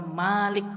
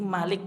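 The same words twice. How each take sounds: First: The first vowel is said long. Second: The first vowel is said short. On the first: It means one who truly owns. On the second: It means a king who rules and controls.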